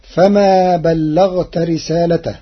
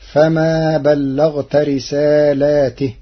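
First: Said in the usual way. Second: Slow "رسالاته" with long a after lam, i on the t; Warsh reading. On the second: Shown as a demonstration. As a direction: say risaalaatih for "رسالاته". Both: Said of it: "بإثبات ألف".

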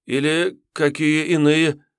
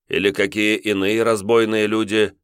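First: Высоко, медленно, недоумевая; повторить не понимая; растерянный отрок. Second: Чуть выше, вкрадчивый вопрос; подвести к ответу; воевода с подвохом. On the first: (отрок растерянно переспрашивает) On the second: Воевода подсказывает. (воевода вкрадчиво подсказывает) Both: Acted.

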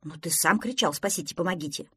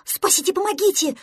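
First: Said in the usual way. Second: High, loud plea for rescue; panicked cry. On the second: Acted. Prostodursen flees pretend lion, panicked cry. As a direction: scream for help in panic.

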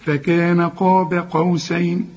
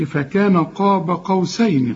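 First: قاب with dark qaf and thin "be"; slow careful recitation, قاب ending light; light ba, heavy qaf. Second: قاب with the ba thickened to a dark "bo"; wrong heavy ba. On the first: Teacher models the verse correctly, قاب with light ba. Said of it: "والقاف دي مفخمة". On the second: Teacher mimics the student's mistake in قاب, wrongly heavy ba. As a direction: mispronounce قاب, fattening its last syllable. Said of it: "ما تقولش". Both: Shown as a demonstration.

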